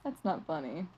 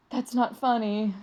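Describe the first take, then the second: First: Much softer and lower second take; quiet repeat. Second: Said in the usual way. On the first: Real, not acted. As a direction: mutter it again under your breath.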